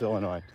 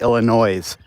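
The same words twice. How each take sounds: First: The word ends without any S sound. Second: The word ends with an audible S sound. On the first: The speaker calls it right. "It's Illinois. And there's no S" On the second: The speaker calls it wrong. "A lot of people pr- pronounce it in America"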